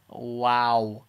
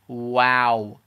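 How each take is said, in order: First: The vowel is a light, open ah sound. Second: The same.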